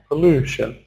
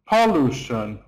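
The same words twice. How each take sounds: First: The stress is on the middle syllable. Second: The stress is not on the middle syllable. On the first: The speaker calls it right. "small, big, small" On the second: The speaker calls it wrong. "It's the wrong stress"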